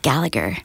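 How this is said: The name has an American-style pronunciation. This version is easier to use in American-accent work. "if I have to do things in American accent, it's easier to slate my name as Gallagher"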